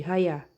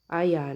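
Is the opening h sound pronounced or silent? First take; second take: pronounced; silent. First: The word begins with an audible h sound. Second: The word begins directly with the vowel. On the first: The speaker calls it right. "você vai usar a regra gramatical de inglês para ler" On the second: The speaker calls it wrong. "Não vai pronunciar o H. Aí não pode"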